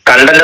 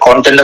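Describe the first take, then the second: First: The first vowel sounds like 'a'. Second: The first vowel sounds like 'o'. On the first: It means satisfaction. The speaker calls it wrong. "കണ്ടന്റ് എന്ന് പറയരുത്" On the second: It means what something contains. The speaker calls it right. "കോണ്ടന്റ് എന്നേ പറയണം"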